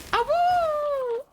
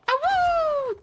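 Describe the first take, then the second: First: High howling awoo; wolf howl. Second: High howling awoo again; wolf howl. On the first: Streamer howling at viewer. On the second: Second howl, same manner. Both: Acted.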